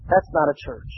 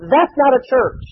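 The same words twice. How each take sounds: First: Dropped low and soft, sinking to a hush; hushed, grave repeat; quiet repeated verdict. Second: Emphatic declaration. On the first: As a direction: let it fall quiet and heavy. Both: Acted.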